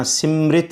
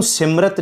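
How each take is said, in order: First: ਸਿਮਰਿਤ with a clear short i after ਮ; correct pronunciation. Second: ਸਿਮਰਤ said without the i vowel after ਮ; the incorrect reading ਸਿਮਰਤ, plain short syllables; wrong pronunciation. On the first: Preacher correcting the congregation's reading of ਸਿਮਰਿਤ. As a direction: say ਸਿਮਰਿਤ as sim-ri-t, the sihari sounded. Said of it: "ਸਿਮਰਿਤ ਹੀ ਪੜ੍ਹਨਾ ਹੈ". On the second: Preacher showing listeners how not to read ਸਿਮਰਤ. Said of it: "ਇਹਨੂੰ ਸਿਮਰਤ ਨਹੀਂ ਪੜ੍ਹਨਾ". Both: Shown as a demonstration.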